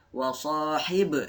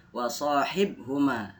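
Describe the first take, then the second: First: Slow "wa sahib" with a short "e" popping after the b; long "sahi", echoed b in "wa sahib"; bouncing b. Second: "wa sahibhuma" with the b stopped dead before "huma"; unbounced b in "wa sahibhuma"; no bounce. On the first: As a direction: recite "wa sahib", bouncing off the final b. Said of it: "Dia memantul". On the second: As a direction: close the b in "wa sahibhuma" without echo. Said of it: "tidak dibaca wa sahibhuma". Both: Shown as a demonstration.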